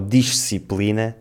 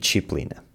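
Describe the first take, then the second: First: The middle consonant sounds like s. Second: The middle consonant sounds like sh. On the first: This is the pronunciation used outside Lisbon. "Em vez de dizermos" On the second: This is the typical Lisbon pronunciation. "transformamos o som se em x"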